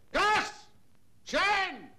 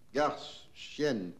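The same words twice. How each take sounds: First: It is shouted loudly. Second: It is said quietly, without shouting.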